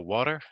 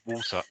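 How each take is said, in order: First: An American accent with the t sound kept. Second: A British accent with the t sound dropped.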